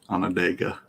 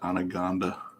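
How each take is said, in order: First: The name is said as on-on-DAH-ga. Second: The name is said like the word anaconda. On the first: The speaker calls it right. "then I heard somebody say Onondaga" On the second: The speaker calls it wrong. "I called it Anaconda forever"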